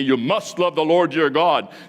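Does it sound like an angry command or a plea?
angry command. It sounds like an angry, stern command.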